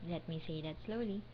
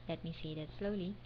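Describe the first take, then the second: The two takes are said the same way.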